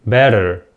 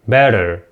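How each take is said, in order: Both takes have the same delivery.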